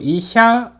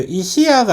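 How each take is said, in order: First: The word is said as two syllables, sha merged. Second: The word is said as three separate syllables. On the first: The speaker calls it right. "이샤 의사라는 뜻이기 때문에 두 박이 되는 거예요" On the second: The speaker calls it wrong. "이시야가 아니고"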